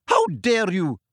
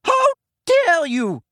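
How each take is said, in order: First: Angry shout. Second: Very high, loud furious cry; furious shout. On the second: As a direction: scream it out in outrage. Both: A narrator's reading. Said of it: "the figure shouted as she ran".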